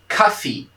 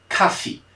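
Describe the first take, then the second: No difference in how they are said.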